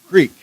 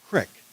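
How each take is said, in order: First: The word has a long vowel, like 'seek'. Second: The word has a short vowel, like 'kick'. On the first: The speaker calls it wrong. "not creek" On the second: The speaker calls it right. "the pronunciation was crick"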